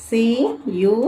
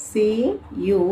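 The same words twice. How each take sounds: No difference in how they are said.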